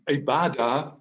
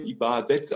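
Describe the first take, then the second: First: The word is said in its Arabic form. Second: The word is said in its Turkish form. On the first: "das war das Wort jetzt arabisch ausgesprochen" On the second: "auf Türkisch"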